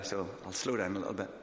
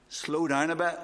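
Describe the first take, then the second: First: Eased back, settling into a calmer pace; slowing down. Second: Higher, louder call to slow down; wife's reminder. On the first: Shown as a demonstration. Preacher slowing his speech for the church, eased back. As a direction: show you're reining yourself in. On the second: Retold or imitated. Wife telling her fast-talking husband to slow down, higher and louder. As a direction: nudge him like a wife across the church. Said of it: "Joan will say to me".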